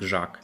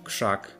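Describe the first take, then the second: First: The first consonant is a voiced g. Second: The first consonant is a voiceless k. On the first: The speaker calls it wrong. "not ... grzak" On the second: The speaker calls it right. "so we get ... krzak"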